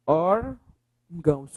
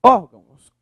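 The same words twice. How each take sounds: First: "Órgãos" slowly split as ÓR... GÃOS; syllable by syllable. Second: Said in the usual way. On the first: Shown as a demonstration. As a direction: break "Órgãos" into two drawn-out syllables. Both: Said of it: "Separa a palavra".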